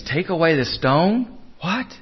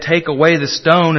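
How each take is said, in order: First: Rising, disbelieving echo; incredulous question. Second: Said in the usual way. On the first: Acted. Mourners balk at moving the stone, incredulous. Acting out hearers' disbelief at the order.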